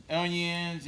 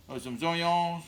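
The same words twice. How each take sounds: First: Said in the usual way. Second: Zoyons said with a z sound in front, Cajun style. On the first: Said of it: "uh, some zoyons". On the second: Shown as a demonstration.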